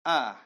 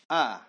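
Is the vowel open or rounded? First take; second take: open; open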